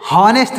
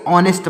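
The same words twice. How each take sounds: First: हॉनेस्ट with a voiced h at the start, said higher and louder; wrong pronunciation with h. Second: ऑनेस्ट starts straight on the vowel, no h; correct silent h. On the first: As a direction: say हॉनेस्ट with a clear h sound, as the mistake to avoid. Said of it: "हॉनेस्ट नहीं पढ़ेंगे". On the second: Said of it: "इसको ऑनेस्ट पढ़ेंगे". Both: Shown as a demonstration.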